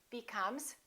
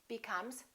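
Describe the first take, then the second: No difference in how they are said.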